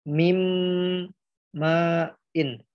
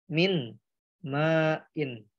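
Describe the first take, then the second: First: The n merges into a held, nasal m. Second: The n is pronounced separately before the m. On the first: The speaker calls it right. "nun matinya ini nggak dibaca, langsung dileburkan ke huruf mim" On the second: The speaker calls it wrong.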